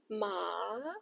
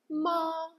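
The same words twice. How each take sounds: First: The pitch dips low, then rises. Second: The pitch stays high and level. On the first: "the third tone, it dips, then rises" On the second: "the first one, which sounds flat"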